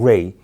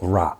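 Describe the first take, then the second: First: The vowel sounds like 'ay'. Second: The vowel sounds like 'ah'. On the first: The speaker calls it wrong. "It's not Ray" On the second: The speaker calls it right. "but Ra"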